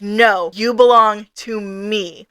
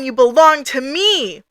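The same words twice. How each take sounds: First: Slow, measured "you belong to me"; firm claim. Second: Slow, possessive mock-angry claim; hammed-up fury, stretched out and swooping on the last word; enraged god. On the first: Retold or imitated. Leon calls her back through their bond, slow and firm. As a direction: stake the claim slowly, without raising the voice. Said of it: "Leon is tugging on their soul string". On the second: Angry god claims Ray as its own, acted fury. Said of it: "Our god is mad. It's angry. It's pissed".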